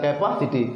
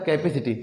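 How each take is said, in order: First: The second syllable has a full 'pa' vowel. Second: The second syllable has a short 'peh' vowel. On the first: It is a spelling-based form used to memorize the word. The speaker calls it wrong. "इसे तोड़ के बता रहे हैं कैपासिटी" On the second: It is how the word is actually pronounced. The speaker calls it right. "वैसे उच्चारण क्या होता है"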